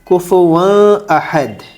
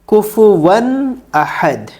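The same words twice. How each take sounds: First: The n sound is hidden and nasalized before ahad. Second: The n sound is pronounced clearly before ahad. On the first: The speaker calls it wrong. "तो गलत हो जाएगा, वो इख्फा हो जाएगा" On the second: The speaker calls it right. "हमें यहाँ इजहार करना है"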